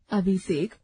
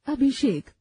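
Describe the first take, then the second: First: अभिषेक said as अबिसेक with a plain b and a plain s; wrong pronunciation. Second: Said in the usual way. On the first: Shown as a demonstration. Teacher demonstrating the faulty sounds to pupils. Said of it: "अशुद्ध". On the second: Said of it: "शुद्ध".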